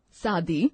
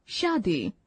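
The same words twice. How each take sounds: First: शादी with plain s, saadi; wrong pronunciation. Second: Said in the usual way. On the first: Shown as a demonstration. Teacher reading the wrong form, s for sh. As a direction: start शादी with s not sh. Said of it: "अशुद्ध शब्द". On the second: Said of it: "शुद्ध शब्द".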